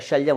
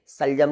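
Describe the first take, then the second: First: The word begins with an 'sh' sound. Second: The word begins with a plain 's' sound. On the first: The speaker calls it right. "शलजम होता है" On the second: The speaker calls it wrong. "सलजम नहीं होता"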